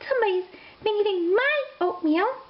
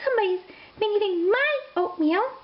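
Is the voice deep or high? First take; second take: high; high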